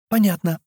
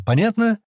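First: Put-on "Понятно" falling, in a high girl's pitch; ready childlike acknowledgement, "Понятно" closing downward; confirming answer. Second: "Понятно" pitched high as a question; checking question. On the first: Girl confirms she understood. (утвердительно, «Понятно» с понижением) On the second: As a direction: demand confirmation with a lifted "Понятно". Man checks the girl understood. (вопросительно, «Понятно» повыше) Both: A narrator's reading.

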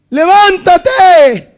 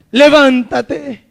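First: Levántate said slow, higher and louder; Jesus raising his voice on levántate; rising louder command. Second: Said in the usual way. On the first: Shown as a demonstration. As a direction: call out levántate with lifted force.

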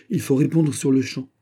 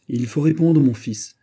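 First: Higher and louder, insisting; insistent urging. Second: Higher and louder, pressing hard; urgent exclamation. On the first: The queen mother insisting her son answer now. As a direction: press the point again. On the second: The queen mother urging her son to answer at once. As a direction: cry out to rush him. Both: Acted. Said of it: "s'écria Anne d'Autriche".

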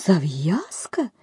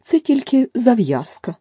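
First: Slow whispered question rising on Зав'язка; puzzled echo. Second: Louder, higher, slow, stress on Це; angry. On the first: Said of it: "підхопила Аліса". (пошепки, здивовано) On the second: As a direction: hammer down Це angrily. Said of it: "ще дужче розсердилася миша". (сердито, з наголосом на «Це») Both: A narrator's reading.

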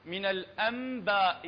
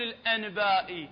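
First: الأنباء said with m before b; slowly, n turned to m in الأنباء; iqlab. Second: الأنباء said with a clear n before the b; the wrong way: a full n in الأنباء. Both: Shown as a demonstration. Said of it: "ما نقول الأنباء".

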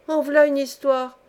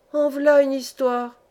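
First: Exclamation plus aiguë et plus forte; la logeuse s'étonne devant sa servante; vieille logeuse. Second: Exclamation lente, plus aiguë et plus forte; vieille logeuse. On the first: Vieille femme répète à la servante. (exclamation de vieille femme, appuyée) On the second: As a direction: une vieille logeuse qui s'étonne. Vieille femme s'exclame. (exclamation de vieille femme, lente et appuyée) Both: Acted.

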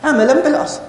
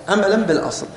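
First: عملًا بالأصل pitched much higher, with a rise on بالأصل; teacher stressing the key point عملًا بالأصل; emphatic answer. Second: Said in the usual way. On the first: Shown as a demonstration. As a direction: answer your own question in a lifted, high emphatic voice. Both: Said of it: "عملًا بماذا؟".

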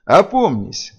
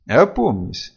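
First: Raised, higher-pitched commanding cry; forceful call to come round; thundering command. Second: Mild, calming order; gentler command. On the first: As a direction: thunder it at someone out of control. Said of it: "загремел Хедин". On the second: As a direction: say it more gently, still firm. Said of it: "уже мягче проговорил". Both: A narrator's reading.

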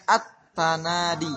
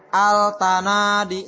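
First: Slow "at-tanadi", no l, doubled t; assimilated reading. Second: Loud, slow "Al-tanadi" with the l sounded; deliberate misreading. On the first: Teacher modelling the reading, slow "at-tanadi" with doubled t. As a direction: draw out "at-tanadi" with the lam silent. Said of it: "Ya, dibacanya at-tanadi". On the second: Teacher faking the error for pupils, slow loud "Al-tanadi" with l. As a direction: stretch "Al-tanadi" out, voicing the lam. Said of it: "Kita salahkan". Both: Shown as a demonstration.

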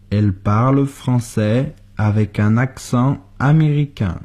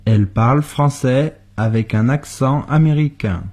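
The two takes are said the same way.

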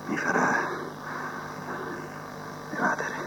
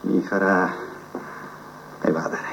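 First: "Mi farà evadere" whispered almost without voice. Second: Softly, to himself, "Mi farà evadere" in a low voice; quiet musing. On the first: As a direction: breathe the words as a secret. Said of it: "repeated after quiet take". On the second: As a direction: murmur the idea while turning it over. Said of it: "repeated, then whispered". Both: Acted.

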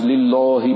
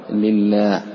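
First: لله with dark, rounded "lillaw"; wrongly heavy laam. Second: لله with thin laam and open aa; light laam. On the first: Retold or imitated. Teacher mimics some reciters' error, لله with heavy laam. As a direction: thicken the laam and vowel of لله. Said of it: "كأنه سمع بعض الناس". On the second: Shown as a demonstration. Teacher corrects the reciters, لله with light laam. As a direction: say لله slowly with a clear front "laa". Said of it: "رقق".

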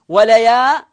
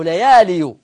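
First: وليال said "wa-layaaa-lin", ending in n; وليال with a clear final nun; tanween ending. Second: ليالي said "layaaliyu", ending in -yu; ليالي with a full -iyu ending; original underlying form. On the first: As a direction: stretch the aa in وليال, land on -lin. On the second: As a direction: sound the ya with a damma in ليالي. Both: Shown as a demonstration. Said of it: "أصلها ليالي".

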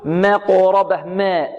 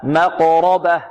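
First: مقربة with the fatha on م shortened and thinned; wrong pronunciation. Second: مقربة slow, with a full open fatha on م; correct pronunciation. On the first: Teacher to students, showing the clipped-vowel mistake. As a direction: demo the beginner who clips the fatha in مقربة. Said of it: "البعض المبتدئين يقول". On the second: Teacher to students, modelling the full fatha. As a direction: stretch the opening ma of مقربة fully and slowly. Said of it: "لا، ما". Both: Shown as a demonstration.

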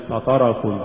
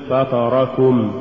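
First: فطركم with short vowels cut; snatched vowels. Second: Slow فطركم, each short vowel complete; full vowels. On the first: Teacher shows crooked reading, فطركم hurried. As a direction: hurry the syllables of فطركم. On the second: Teacher models correct recitation, فطركم evenly voweled. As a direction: give each syllable of فطركم equal room. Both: Shown as a demonstration. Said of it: "ولا تقل".

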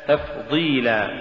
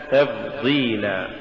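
First: تفضيلا said slowly with a clear f; careful tajweed تفضيلا with a voiceless f; correct f sound. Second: تفضيلا said slowly with b replacing f; wrong b for f. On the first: (تفضيلا بفاء مهموسة واضحة) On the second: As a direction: demonstrate the error تفضيلا as tabdila. (تفضيلا بالباء بدل الفاء خطأً) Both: Shown as a demonstration. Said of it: "تقرأ لحنا".

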